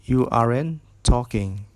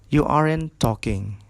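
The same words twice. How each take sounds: Both takes have the same delivery.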